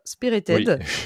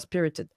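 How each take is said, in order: First: It is said with a French accent. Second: It is said with an English accent. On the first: "je fais à la française" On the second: "je vous le fais en anglais"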